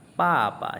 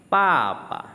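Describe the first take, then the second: First: Papa slowly, first pa falling, second pa light; tone demo repeated. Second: Papa with a sharp falling first syllable, light second; tone four then neutral tone. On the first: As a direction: show papa again at slow pace. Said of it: "itu dibaca nada ringan". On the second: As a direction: drop hard on the first pa, leave the second pa light. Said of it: "yang terakhir itu ya, itu dibaca nada ringan". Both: Shown as a demonstration.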